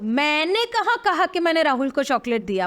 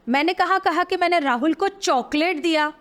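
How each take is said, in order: First: The stress is on मैंने. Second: The stress is on chocolate.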